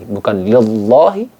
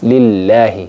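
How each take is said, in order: First: The l sound is pronounced thick and heavy. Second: The l sound is pronounced thin and light. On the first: The speaker calls it wrong. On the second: The speaker calls it right. "dibaca tipis"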